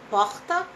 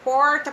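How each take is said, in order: First: It is said in a Rio de Janeiro accent. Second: It is said in a countryside interior accent. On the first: "vamos dizer que você é carioca. Como é que você fala porta?" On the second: "Se você é do interior, você fala porta"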